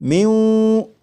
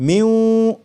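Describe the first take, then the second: Both takes have the same delivery.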